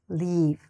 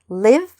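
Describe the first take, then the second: First: The vowel is long and drawn out. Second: The vowel is short and quick. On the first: The speaker calls it wrong. "not leave" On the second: The speaker calls it right. "Shorten it"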